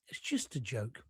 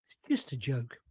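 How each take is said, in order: First: Fading almost to nothing; faint dismissive murmur; even quieter echo. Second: Lowered disbelief, barely said; softly dismissive under the breath; quiet muttered aside. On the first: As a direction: repeat it, trailing right off. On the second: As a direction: drop the voice, muttered to yourself. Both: Real, not acted.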